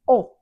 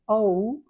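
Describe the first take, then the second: First: The vowel stays steady with no added glide. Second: The vowel glides into a little extra sound. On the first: "You just want to say" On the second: "and we say"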